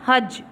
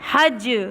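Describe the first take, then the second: First: The final consonant stops flat without a bounce. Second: The final consonant ends with an echoing bounce. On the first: The speaker calls it wrong. "इसको ऐसे नहीं पढ़ना" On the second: The speaker calls it right. "इस पे कलकला करना है"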